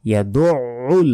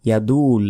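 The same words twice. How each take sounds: First: ইয়াদুউল slow, with a pressed throaty ain; correct way. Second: ইয়াদুল said short, with no throat sound; wrong way. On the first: Teacher shows the correct form after the mistake. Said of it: "আইনের উচ্চারণ গলার ভেতর থেকে". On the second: Teacher imitates the common mispronunciation. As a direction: clip ইয়াদুল quickly, the common mistake. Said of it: "আমরা অনেকে বলি". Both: Shown as a demonstration.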